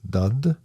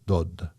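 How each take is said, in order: First: It is said with a Norwegian pronunciation. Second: It is said with a Danish pronunciation. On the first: "The Norwegian uh, pronunciation of of uh, died is dud" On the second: "the Danish version is dod"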